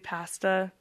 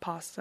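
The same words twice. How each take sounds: First: The word is said with a Canadian vowel. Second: The word is said with an American vowel. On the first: "we say pasta" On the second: "not pasta"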